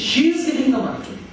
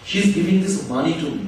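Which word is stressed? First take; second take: she; money. First: The stress falls on the word she. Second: The stress falls on the word money. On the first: She is the one giving it, not someone else. "যদি শি এর উপর জোর দিই" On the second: It is money being given, not something else. "মানে টাকাই দিচ্ছে"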